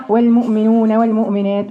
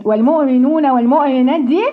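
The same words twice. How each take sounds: First: والمؤمنون والمؤمنات with the hamza made lightly at the front of the mouth; surface hamza. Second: والمؤمنون والمؤمنات with the hamza made lightly at the front of the mouth; shallow hamza. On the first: Teacher imitating a student's shallow hamza in والمؤمنون. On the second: Teacher repeating the student's shallow hamza. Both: Shown as a demonstration. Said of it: "دي زي اللي بتنضف الشقة من على الوش كده".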